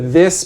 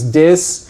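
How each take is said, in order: First: The word begins with a soft th sound. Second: The word begins with a hard d sound. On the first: "That's the this becomes dis" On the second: "DH-TH fortition"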